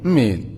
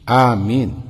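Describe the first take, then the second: First: The word is clipped to a single syllable. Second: The word is said in full with two syllables. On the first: The speaker calls it wrong. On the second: The speaker calls it right.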